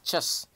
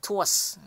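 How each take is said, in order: First: It begins with a ch sound. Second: It begins with a plain t sound. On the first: The speaker calls it right. "tapi langsung C E S" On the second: The speaker calls it wrong. "bukan tuas"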